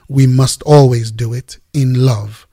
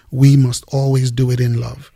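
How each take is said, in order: First: Always leaned on firmly; stress on always. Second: Said in the usual way. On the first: Shown as a demonstration. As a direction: press on the word always, then let it fall.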